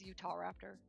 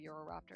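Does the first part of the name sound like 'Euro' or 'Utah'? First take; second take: Utah; Euro. First: The first part is said clearly as 'Utah'. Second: The first part is blurred into 'Euro'. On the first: The speaker calls it right. "it's literally Utah and raptor" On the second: The speaker calls it wrong. "I always want to call me Euroraptor"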